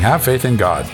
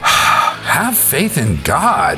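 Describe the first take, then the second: First: It is said in a plain, neutral tone. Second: It is said with a frustrated, exasperated sigh.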